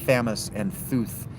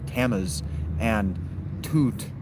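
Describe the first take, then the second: First: Both names begin with a th sound. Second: Both names begin with a plain t sound. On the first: The speaker calls it wrong. "they don't have the th sound. It's not Thamus and Thuth" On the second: The speaker calls it right. "It's Tammuz and, or Tammuz and Tut"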